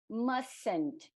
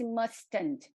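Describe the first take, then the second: First: The middle t is dropped, sounding like 'mussn't'. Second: The middle t is fully pronounced in the word. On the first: This is the usual, easier way to say it. "a pronúncia pode também ser, e geralmente é, mustn't ... Lembra de maçã" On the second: This is less common in everyday speech. "A gente não necessariamente vai falar esse mustn't"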